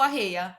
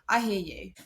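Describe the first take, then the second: First: It is said in a light, casual way. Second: It is said in a sympathetic, emotional way.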